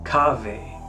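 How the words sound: It is said in ecclesiastical church Latin pronunciation. "In ecclesiastical"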